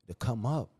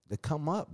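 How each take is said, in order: First: Said in the usual way. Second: "To come up" pitched higher, pushed hard; emphatic repeat. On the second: Real, not acted. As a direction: hammer "To come up" home on a higher note.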